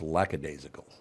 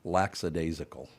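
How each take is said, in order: First: No S sound is added inside the word. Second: An extra S sound is added inside the word. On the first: The speaker calls it right. "It's lackadaisical. There's no S" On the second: The speaker calls it wrong. "everybody mispronounces because they put an S in it"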